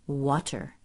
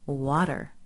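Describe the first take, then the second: First: The middle T is a clear crisp T. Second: The middle T is a quick soft flap. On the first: "instead of water" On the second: "Why do people say water"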